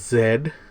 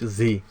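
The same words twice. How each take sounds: First: The letter name is said as in Canada. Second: The letter name is said as in the US. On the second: "in United States we call it Z"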